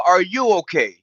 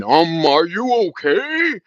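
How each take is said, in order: First: Turned-back challenge. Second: Slow, high, drawn-out mock "are you okay"; mock concern. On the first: Acted. Turning a viewer's question back on them, blunt and pointed. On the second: Mimicking a viewer who chimes in, slow mock concern. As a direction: stretch it out like a fake-caring viewer. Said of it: "somebody wanna chime in".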